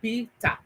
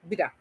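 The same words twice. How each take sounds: First: It is said in a Nigerian accent. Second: It is said in an attempted American accent. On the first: "I call it in Nigerian accent" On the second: "let me call an American accent"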